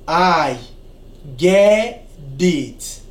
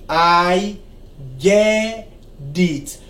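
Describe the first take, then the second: First: The t in get sounds like a soft d. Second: The t in get sounds like a soft d.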